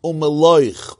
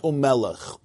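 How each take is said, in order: First: Umeloich with the oi sound, mel-OICH, firm and falling; corrected reading. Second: Umelech with a short e, said as me-lech; the mistaken Umelech, read plainly before the correction; wrong reading. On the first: Teacher correcting the verse for students, firm falling pron. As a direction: Umeloich stressed on the last syllable, correcting himself. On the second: Teacher showing the misreading to his class, said plainly. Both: Shown as a demonstration. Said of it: "not Umelech".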